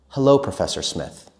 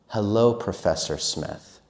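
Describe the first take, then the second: First: It is said at normal conversational speed. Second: It is said faster again. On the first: "and normal"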